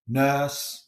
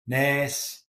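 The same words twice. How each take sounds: First: "nurse" with RP central vowel, no R; Received Pronunciation "nurse"; RP accent. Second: "nurse" with a Liverpool "air" vowel; Scouse "nurse", sounding like "nairs"; Liverpool accent. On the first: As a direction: say "nurse" in non-rhotic RP. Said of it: "if it's R P". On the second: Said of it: "nurse for Liverpool". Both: Shown as a demonstration.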